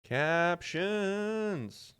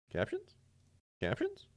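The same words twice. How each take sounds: First: Captions said flat with a falling end; a level test call of Captions. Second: Captions? squeaked very high with a rising end; a tiny high-pitched Captions?; squeaky test call. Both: Shown as a demonstration. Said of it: "Wait, captions?".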